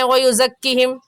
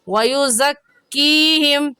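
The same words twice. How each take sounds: First: The vowel after the k sound is cut short. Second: The vowel after the k sound is held long. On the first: The speaker calls it wrong. "यहाँ भी ऐसे गलती कर जाते हैं" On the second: The speaker calls it right. "सही है वयुज़क्कीहिम"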